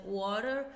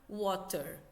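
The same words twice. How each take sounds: First: Water said fluidly with a flapped t, like "wah-der"; American pronunciation. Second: Water said with a crisp, clearly struck t, "waw-ter"; British pronunciation. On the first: Teacher contrasting American and British water, American take. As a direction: roll through Water American style, t softened to d. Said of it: "inglês americano, ele é mais fluido". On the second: Teacher contrasting American and British water, British take. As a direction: clip water British style, t sharp and distinct. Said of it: "inglês britânico, ele é mais pausado". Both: Shown as a demonstration.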